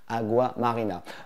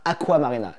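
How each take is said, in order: First: The first word has a G sound in the middle. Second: The first word has a K sound in the middle. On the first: The speaker calls it right. "J'ai mis cinq jours à bien le prononcer" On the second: The speaker calls it wrong. "et pas Aqua Marina"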